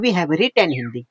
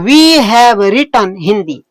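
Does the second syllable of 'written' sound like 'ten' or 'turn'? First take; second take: ten; turn. First: The second syllable of 'written' sounds like 'ten'. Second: The second syllable of 'written' sounds like 'turn'. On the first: "accent है उनका, मतलब बोलने का तरीका है" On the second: "ज्यादा सही है रिटर्न"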